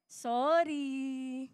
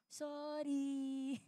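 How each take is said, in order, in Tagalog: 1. Parang pilit at hindi taos-puso ang paghingi ng tawad. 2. Parang malambot at taos-puso ang paghingi ng tawad. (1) "Plastic pa din, hindi pa rin masabi" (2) "Hindi ganyan yung mas maayos"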